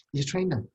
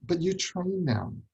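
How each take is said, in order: First: "train" stressed, falling; the word "train" punched, short falling line. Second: "you" stressed, slow and falling; "you" carries the weight, drawn out. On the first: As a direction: hit "train" in "You train them". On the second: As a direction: lean on "you" in "you train them". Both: Shown as a demonstration. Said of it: "repeats for emphasis".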